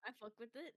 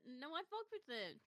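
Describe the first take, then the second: First: Said in the usual way. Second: "fuck" leaned on with a falling tune; stress on fuck. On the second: Real, not acted. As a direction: insist by hitting "fuck".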